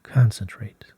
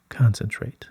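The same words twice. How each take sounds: The two takes are said the same way.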